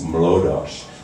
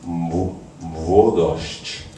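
First: An L sound follows the first M. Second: A W sound follows the first M. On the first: The speaker calls it wrong. "which we were inaccurately singing as Mlodosz" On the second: The speaker calls it right. "but it's Mwodosz"

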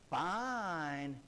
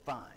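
First: The word sounds warm and sincere. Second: The word sounds curt and dismissive. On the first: He means she looks good. "he didn't say fine" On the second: He is annoyed and does not really approve. "He said, fine. Now, if inflection in your voice can mean that much"

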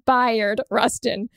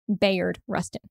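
First: The first name is said as 'BYE-ard'. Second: The first name is said as 'BAY-ard'. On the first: The speaker calls it right. "It's Bayard Rustin" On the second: The speaker calls it wrong. "Turns out I've been saying it wrong"

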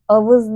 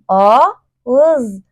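First: The middle consonant is a clear v sound. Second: The middle consonant is a soft g glide. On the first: The speaker calls it wrong. "Sakın bunu vız sesiyle karıştırma. Avız değil" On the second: The speaker calls it right. "Dikkat et, yumuşak gı var"

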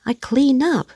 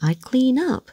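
First: The stress falls on the word clean. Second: The stress falls on the word up. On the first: "bạn ấy nhấn trọng âm vào clean và cái ai đi xuống" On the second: "dường như trọng âm rơi vào up đó ạ"

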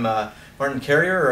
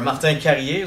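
First: The name is pronounced the English way. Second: The name is pronounced the French way.

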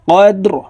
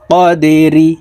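First: The word ends on a bare r sound. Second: The word ends with an 'i' vowel after r. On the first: "রকে ওয়াকফের ক্ষেত্রে সাকিন করে ফেলব।" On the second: "র জির রি"

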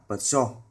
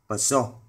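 Both takes have the same delivery.

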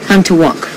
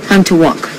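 Both takes have the same delivery.

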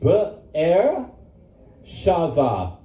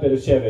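First: The name is said as 'Be-er Shava' with a 'shava' ending. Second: The name is said as 'Beer-sheba' with a 'sheeba' ending. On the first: The speaker calls it right. "It's Be'er, say Be'er Shava" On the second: The speaker calls it wrong. "Beersheba is not Beersheba"

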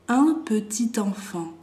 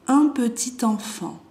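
The two takes are said the same way.

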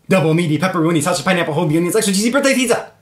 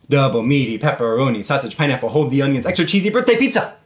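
First: It is said fast. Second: It is said at a normal pace.

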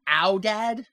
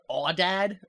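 First: The first vowel sounds like 'ow' in 'cow'. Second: The first vowel sounds like 'aw' in 'saw'. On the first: The speaker calls it right. "but it's really pronounced owdad" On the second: The speaker calls it wrong. "he pronounces the word awdad"

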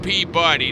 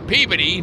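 First: It is said in the standard full pronunciation. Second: It is said in the local town pronunciation. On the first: This is the cartoon dog's name. The speaker calls it wrong. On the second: This is the town's name. The speaker calls it right.

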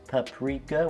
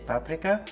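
First: It is said with a non-Eastern European pronunciation. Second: It is said with an Eastern European pronunciation. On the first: This is how other people say it. "we don't say paprika" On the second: This is how Eastern Europeans say it. "if you're Eastern European like I am, ... we say paprika"

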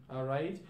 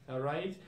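Both takes have the same delivery.

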